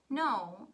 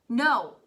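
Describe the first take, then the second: First: It is said quietly. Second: It is shouted loudly.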